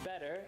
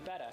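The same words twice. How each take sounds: First: Better ends with an r-coloured 'er' sound. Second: Better ends with an open 'uh' sound. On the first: The speaker calls it wrong. "instead of saying um" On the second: The speaker calls it right. "it'd be"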